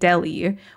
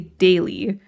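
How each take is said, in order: First: The first syllable rhymes with jelly. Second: The first syllable does not rhyme with jelly. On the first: "it basically rhymes with like jelly or belly" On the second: "I always say daily"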